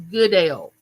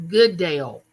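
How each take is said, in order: Both takes have the same delivery.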